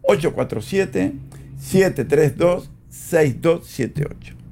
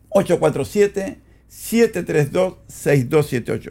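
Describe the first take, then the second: First: The number is said slowly. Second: The number is said quickly.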